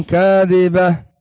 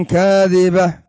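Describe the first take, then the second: Both takes have the same delivery.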